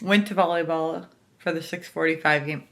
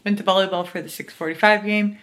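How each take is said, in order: First: Talking with retainers in; slurred by retainers in mouth. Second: Said in the usual way. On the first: Real, not acted. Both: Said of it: "I have my retainers in".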